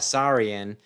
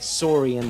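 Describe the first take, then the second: First: The first part sounds like 'Sauron'. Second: The first part sounds like 'sore'. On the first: The speaker calls it wrong. "like it's Sauron" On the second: The speaker calls it right. "You should say it Saurian like dinosaur"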